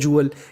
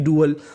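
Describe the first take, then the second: First: The word starts with a J sound. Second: The word starts with a D sound. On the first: The speaker calls it right. "D U A L को हम लोग English में पढ़ते हैं जूअल।" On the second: The speaker calls it wrong. "ना कि डुअल।"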